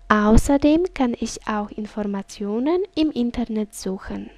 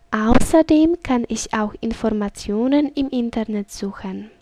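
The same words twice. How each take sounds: The two takes are said the same way.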